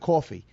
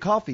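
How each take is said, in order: First: It has a strong New York accent. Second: It has a neutral, toned-down accent. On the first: How the speaker talks at home. "instead of coffee" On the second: How the speaker talks away from home. "now I say coffee"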